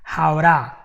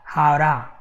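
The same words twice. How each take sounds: First: It is fast, with the T flapped like an R. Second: The same.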